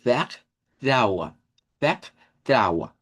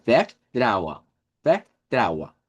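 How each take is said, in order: First: "Vertraua" with a throaty J-like R; R as Spanish J. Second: "vertraua" said slowly with a plain R; the easier way: "vertraua" with an R, slowly; German vertraua. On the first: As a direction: say "Vertraua" rasping the R like a Spanish jota. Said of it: "la J del español". ("vertraua" con R como J española) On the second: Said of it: "nos queda más fácil así". ("vertraua" con R, más fácil) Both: Shown as a demonstration.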